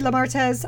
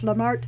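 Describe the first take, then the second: First: The name is pronounced without a French style. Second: The name is pronounced in a French style. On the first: "but it could be" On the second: "I always pronounce it like it's French"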